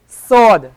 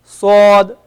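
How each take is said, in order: First: Sword said with a plain English s; the common wrong sword; wrong sod with sin. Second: Sword slow, thick emphatic s; Arabic emphatic sod. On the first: Teacher shows the students' mistake, a plain s in sword. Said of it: "people, they pronounce sod with a sin". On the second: Teacher gives the right emphatic sod, slowly. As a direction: sword with a heavy, dark s. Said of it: "This is not sword, but this is a sword". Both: Shown as a demonstration.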